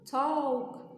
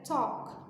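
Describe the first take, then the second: First: The L sound is pronounced in the word. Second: The L is silent, with a short open O. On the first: The speaker calls it wrong. "A gente não fala talk" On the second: The speaker calls it right. "É talk. É um O, O seco"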